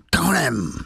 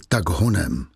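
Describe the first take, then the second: First: Higher, snarled "Tak honem" like a beast; animal growl. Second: Said in the usual way. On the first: Shown as a demonstration. Javert snarling at Valjean, a beastly growl. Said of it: "Řekl". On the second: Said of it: "Javert neřekl".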